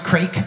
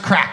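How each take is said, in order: First: The vowel is long, as in 'bake'. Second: The vowel is short, as in 'back'. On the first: The speaker calls it wrong. "It's not pronounced crake" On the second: The speaker calls it right. "it's pronounced crack"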